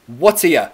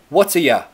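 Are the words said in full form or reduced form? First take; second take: reduced; reduced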